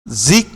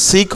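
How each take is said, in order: First: "জিক" said with a buzzing z, not s; voiced Z sound. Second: "সিক" with a hissing s instead of z; unvoiced S sound. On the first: Teacher showing the s in music becomes z, voiced Z sound. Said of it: "জিক হয়েছে, কেমন? সিক হয় নাই". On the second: Teacher showing how music is not said, unvoiced S sound. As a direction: start "সিক" on a plain s, higher. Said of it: "সিক হয় নাই". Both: Shown as a demonstration.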